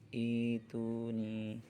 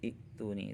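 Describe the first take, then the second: First: The first vowel is lengthened, with no glottal stop. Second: A glottal stop is kept, with no lengthened vowel. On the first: Reading starts from this word. "kalau dibaca awal maka dibaca panjang" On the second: The word is joined to the word before it. "kalau dibaca wasal"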